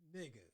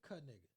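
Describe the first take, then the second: First: The initial K sound is left silent. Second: The initial K sound is pronounced. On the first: The speaker calls it right. "You know how the K is silent" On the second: The speaker calls it wrong. "I don't think that's how you pronounce it"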